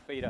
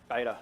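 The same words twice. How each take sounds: First: "beta" said the Australian way, as BEE-tuh; Australian pronunciation. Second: Said in the usual way. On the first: Shown as a demonstration. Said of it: "as we call it in Australia".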